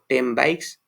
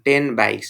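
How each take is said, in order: First: Ten ends with an m sound before bikes. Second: Ten ends with a clear n sound. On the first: The speaker calls it right. "it is easy to pronounce" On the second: The speaker calls it wrong. "it is difficult to pro- pronounce"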